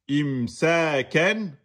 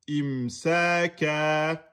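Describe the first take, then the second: First: The word ends with a short vowel plus n. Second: The word ends with a lengthened vowel, no n. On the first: The reading continues without stopping. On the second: The reader stops on this word. "à l'arrêt devient imsaka"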